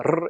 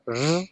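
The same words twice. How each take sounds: First: The R is a full tongue trill. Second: The R is a buzzy sound like j. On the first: This is how most Spanish speakers say it. "instead of going a r" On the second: This is how Costa Ricans say it. "it goes r. ... almost like a j"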